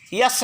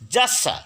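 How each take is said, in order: First: The word begins with a y sound. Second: The word begins with a j sound. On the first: The speaker calls it wrong. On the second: The speaker calls it right.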